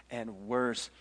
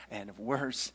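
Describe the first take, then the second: No difference in how they are said.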